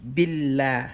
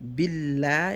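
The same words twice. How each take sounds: The two takes are said the same way.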